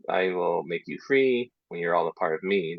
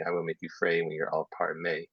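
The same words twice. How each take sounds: First: Said in the usual way. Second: "free" as fray and "May" in place of me; ee turned to ay. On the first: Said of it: "So instead of". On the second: Shown as a demonstration. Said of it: "they say".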